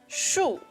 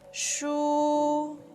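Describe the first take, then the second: First: The pitch falls through the syllable. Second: The pitch stays high and level. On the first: "This is the fourth tone. It's a falling tone" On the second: "is high and flat"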